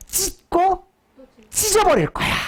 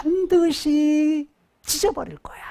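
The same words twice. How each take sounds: First: Much higher, pushed 찢어버릴 with a falling end; high, emphatic voicing of God; high emphatic threat. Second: Voiceless, higher whisper of 반드시 찢어버릴 거야; preacher whispering God's vow; whispered threat. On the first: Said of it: "다른 말 이런 말이야". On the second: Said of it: "그래서". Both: Shown as a demonstration.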